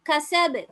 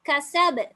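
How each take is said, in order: No difference in how they are said.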